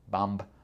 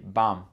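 First: A b sound is pronounced after the m. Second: The word ends on the m with no b. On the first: The speaker calls it wrong. "pas vraiment possible de dire BAMB" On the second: The speaker calls it right. "on dit BAM, comme B-O-M, sans le B"

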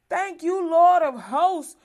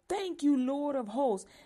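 First: It is said loudly. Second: It is said softly, on a low breath.

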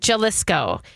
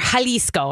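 First: It is said with an English-style pronunciation. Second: It is said with a Spanish-style pronunciation. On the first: The speaker calls it wrong. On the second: The speaker calls it right.

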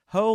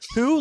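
First: The vowel sounds like 'oh' in 'ho'. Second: The vowel sounds like 'oo' in 'who'. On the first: "Ho, like Laura ho" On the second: "Who, like Elisa who?"

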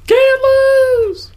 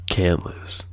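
First: It is yelled loudly. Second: It is said at normal volume, not yelled. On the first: The speaker calls it right. "It's passable" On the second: The speaker calls it wrong. "No, you're supposed to yell it"

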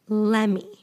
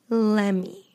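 The two takes are said the same way.

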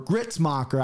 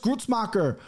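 First: The first vowel is an 'i' sound. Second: The first vowel is a 'u' sound. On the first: It is how the person himself says it. "but he pronounces it Gritz" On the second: It follows the spelling of the name. "There's a fucking U in there"

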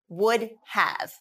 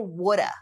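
First: The words are said in full as 'would have'. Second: The words are reduced to 'woulda'.

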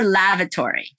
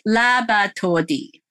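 First: It has clear v and r sounds. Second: The v and r become b and d. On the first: "we're going to go for lavatory" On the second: "okay, good enough"

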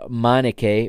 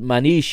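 First: The name ends with a k sound. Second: The name ends with an sh sound. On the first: This is the English commentators' pronunciation. "the way it's the English commentators pronounce it" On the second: This is the Portuguese pronunciation. "it is Manish in Portuguese"

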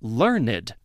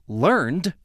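First: The word has two syllables, ending in -ed. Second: The word has one syllable, ending in -d. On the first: It describes someone who has much knowledge. "the E would be silent as a verb, but not as an adjective here. The example above" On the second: It is the past form of the verb to learn. "would be learned as a verb"

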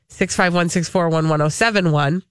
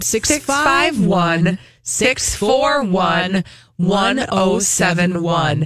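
First: The number is said fast. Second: The number is said slowly.

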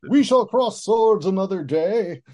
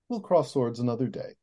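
First: It is said with pompous bluster. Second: It is said calmly and naturally.

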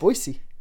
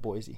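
First: The middle consonant is a hissing s sound. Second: The middle consonant is a buzzing z sound. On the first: The speaker is a local. The speaker calls it right. "Whistle your S" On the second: The speaker is from out of town. The speaker calls it wrong. "You know you're an out-of-towner if you're calling it Boise"

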